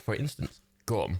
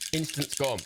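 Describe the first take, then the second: First: There is a pause before gum. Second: It runs together with no pause before gum.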